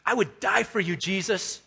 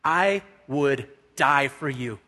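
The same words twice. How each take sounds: First: Higher-pitched, insistent pledge on DIE; impassioned vow. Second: Slow, measured declaration of loyalty; solemn vow. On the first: Peter proving his loyalty to Jesus, higher and insistent. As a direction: press the promise with fervour, pitch lifted. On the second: Peter proving his loyalty to Jesus, slow and deliberate. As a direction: spell out the vow word by word. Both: Retold or imitated. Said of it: "to prove his faith and to prove his loyalty".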